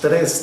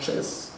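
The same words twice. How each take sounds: First: The r is said in the standard way. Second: The r is said in a regional way. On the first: The speaker calls it right. "no decimos" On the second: The speaker calls it wrong.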